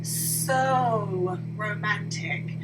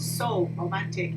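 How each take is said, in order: First: The vowel in 'so' is drawn out long. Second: The vowel in 'so' is short. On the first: The speaker calls it right. "I am extending the long vowel sound" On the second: The speaker calls it wrong. "It's not so romantic"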